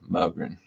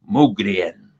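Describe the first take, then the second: First: The name is said with an American pronunciation. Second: The name is said with a Swedish pronunciation. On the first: This form helps people spell it right. "I'm an American" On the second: This is the original form from the home country. "It's actually pronounced Mogren. The Swedes pronounce it"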